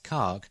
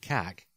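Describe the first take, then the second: First: The vowel is a long A sound. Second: The vowel is a short A sound. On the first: "a long A as Kark" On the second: "a short A as in Kak"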